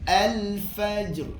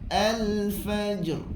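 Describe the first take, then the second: No difference in how they are said.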